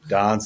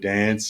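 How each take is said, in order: First: Dance is said with a South African vowel. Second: Dance is said with an Australian vowel. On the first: "I say" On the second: "instead of"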